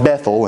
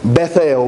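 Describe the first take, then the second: First: The word is run together as one unit. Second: The word is said in two separate parts. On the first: "we have kind of tightened it together" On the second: "which is technically how you're supposed to say it"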